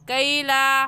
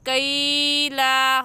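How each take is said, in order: First: The first vowel is said quickly and softly. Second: The first vowel is drawn out or jolted. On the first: The speaker calls it right. "जल्दी से पढ़ जाएंगे" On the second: The speaker calls it wrong. "गलत है"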